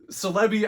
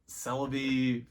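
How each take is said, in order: First: The start sounds like the word 'celebrity'. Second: The start sounds like the word 'celery'. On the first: "I just saw it as like celebrity" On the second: "I know it's like celery"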